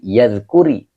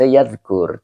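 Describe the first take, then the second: First: The word ends with an added i vowel. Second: The word ends on a bare r consonant. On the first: The speaker calls it right. "tetapi yadkuri" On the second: The speaker calls it wrong. "Tapi tidak dibaca yadkur"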